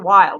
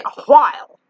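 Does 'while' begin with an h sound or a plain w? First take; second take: plain w; h sound. First: The word begins with a plain w sound. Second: The word begins with a breathy h sound. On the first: This is how younger people say it. "Like younger people, they just say while" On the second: This is how old people say it. "Old people say a while"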